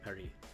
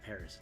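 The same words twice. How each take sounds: First: It is said with a French pronunciation. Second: It is said with an English pronunciation. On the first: "it's Paris" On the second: "the French pronunciation for Paris isn't Paris"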